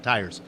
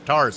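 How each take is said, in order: First: The vowel is a gliding 'eye' sound. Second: The vowel is a flat 'ah' sound. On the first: The speaker calls it wrong. "not tires" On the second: The speaker calls it right. "I'm going to pronounce them tars for this event. T A R S"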